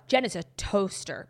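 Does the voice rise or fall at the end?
fall. The voice falls at the end like a statement.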